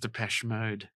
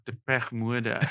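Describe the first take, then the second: First: It is said with the standard band-name pronunciation. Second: It is said with a heavy Afrikaans-style mispronunciation. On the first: The speaker calls it right. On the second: The speaker calls it wrong.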